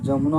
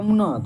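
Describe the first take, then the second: First: The word begins with a 'j' sound. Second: The word begins with a 'y' sound. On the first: "य start है तो जदि हो जाएगा" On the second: "य start है तो जदि हो जाएगा"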